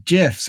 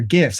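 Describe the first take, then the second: First: "gifs" said like jifs; "gifs" starting with a soft G; soft-G pronunciation. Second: "gifs" with G as in gift; "gifs" starting like give; hard-G pronunciation. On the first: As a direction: say "gifs" with a J sound. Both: Shown as a demonstration. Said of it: "however you choose to pronounce it".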